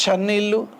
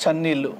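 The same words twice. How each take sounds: First: చన్నీళ్ళు with firm palatal ch; sound contrast demo. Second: చన్నీళ్ళు nearer ts, falling at the end; sound contrast demo. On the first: Teacher showing pupils a letter, చన్నీళ్ళు with firm ch. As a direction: stress the opening ch of చన్నీళ్ళు. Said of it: "ఇదైతేనేమో చలి అని అంటాము". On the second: Teacher contrasting letters for pupils, చన్నీళ్ళు nearer ts. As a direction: let చన్నీళ్ళు start like ts. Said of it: "ఇదేమో చలి". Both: Shown as a demonstration.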